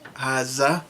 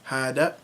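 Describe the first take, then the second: First: The middle consonant is a z sound. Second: The middle consonant is a d sound. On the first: This is the Levantine dialect form. "replace the dal with the z sound" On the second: This is the Saudi and Peninsula dialect form. "hada with a d"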